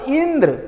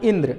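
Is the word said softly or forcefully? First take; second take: forcefully; softly. First: The name is said forcefully, stressing ई. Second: The name is said softly and quietly.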